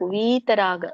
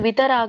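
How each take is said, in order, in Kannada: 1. ಮೊದಲ ಸ್ವರ ಎಳೆದು ದೀರ್ಘ. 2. ಮೊದಲ ಸ್ವರ ಹ್ರಸ್ವ. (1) "ಯಾವಾಗ ದೀರ್ಘ ಇರುತ್ತೋ ಎಳಿಬೇಕು" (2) "ಇದು ವಿತರಾಗ ಅಲ್ಲ"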